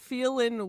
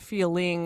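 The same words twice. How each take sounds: First: The word ends in 'n' with no 'g' sound. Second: The word ends with a clear 'ng' sound. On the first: The speaker calls it right. "there's no G in feeling" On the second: The speaker calls it wrong. "not feeling"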